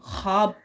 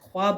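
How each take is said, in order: First: The written w letter is not pronounced. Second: The written w letter is pronounced aloud. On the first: The speaker calls it right. "हम ख्वाब पढ़ते हैं" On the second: The speaker calls it wrong. "ख्वाब नहीं पढ़ते"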